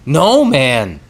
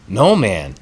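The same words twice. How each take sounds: First: The voice has a strong honking, nasal quality. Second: The voice sounds rougher and shaggier, less honking. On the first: The speaker calls it wrong. "There was a little too much honk in that" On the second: The speaker calls it right. "It was more shaggy. More shaggy than taggy"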